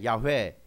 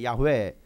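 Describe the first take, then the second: First: The name is pronounced ya-hwe, two syllables. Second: The name is pronounced ya-hwe, two syllables.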